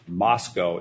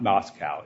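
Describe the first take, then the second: First: The name ends with a sound like 'go'. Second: The name ends with a sound like 'cow'. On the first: It names the town in Idaho. The speaker calls it right. "Moscow is the way to pronounce this town's name" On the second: It names the city in Russia. The speaker calls it wrong. "not Moscow. If anyone went to Moscow, you're in the wrong country"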